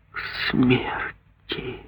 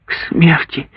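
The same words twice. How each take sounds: First: Very slow, very soft whisper; mother repeats the sentence in a slow whisper; slow horrified whisper. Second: Higher, breathless cry of horror; mother cries out on hearing of the death sentence; horrified exclamation. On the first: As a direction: repeat it numb with horror. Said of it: "медленно повторила она". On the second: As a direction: gasp out the words in shock. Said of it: "воскликнула Гудула". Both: Acted.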